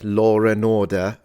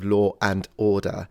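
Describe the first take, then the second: First: An R sound links law to and. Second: No R sound links law to and.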